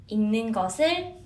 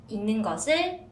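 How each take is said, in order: No difference in how they are said.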